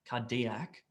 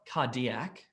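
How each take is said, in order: No difference in how they are said.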